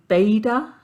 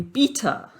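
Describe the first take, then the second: First: It is said in an American accent. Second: It is said in a non-American accent.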